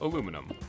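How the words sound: The word is said with four syllables. This is the American way of saying it. The speaker calls it wrong. "Americans are saying that wrong"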